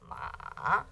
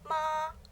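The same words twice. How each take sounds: First: The syllable is said with the third tone. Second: The syllable is said with the first tone. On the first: The word means horse. "That's that's ma with a third tone" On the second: The word means mom. "The initial ma with ah first tone"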